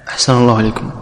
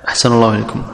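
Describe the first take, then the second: Both takes have the same delivery.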